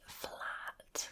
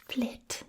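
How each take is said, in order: First: Said in the usual way. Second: "flit" with the a flattened into a short i; South African vowel. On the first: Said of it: "we say flat, we say flit". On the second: Shown as a demonstration. Host showing the South African flat vowel, whispered accent. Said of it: "E becomes more of an E sound".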